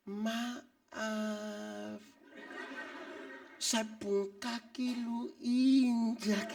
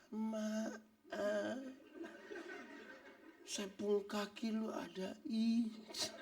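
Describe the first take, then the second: First: Mock a timid over-gentle excuse me; overly polite apology. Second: Very slow, softer, exaggeratedly meek apology; mock the meek over-gentle excuse me; overly polite apology. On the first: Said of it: "bukan berarti omong pelan-pelan". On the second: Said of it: "bukan omong pelan lah". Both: Shown as a demonstration.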